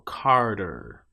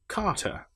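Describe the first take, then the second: First: It is said with strong audible R sounds. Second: It is said with no audible R sounds. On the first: "But if I'm North American, I'll say" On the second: "I would say car, which as we discussed is the R affected A long vowel"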